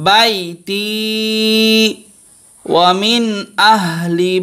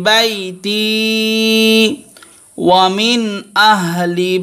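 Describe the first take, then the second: Both takes have the same delivery.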